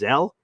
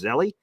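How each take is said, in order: First: The name is said with one syllable. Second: The name is said with two syllables. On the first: The speaker calls it right. "It's not a just Zell?" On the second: The speaker calls it wrong. "Isn't that Zelly?"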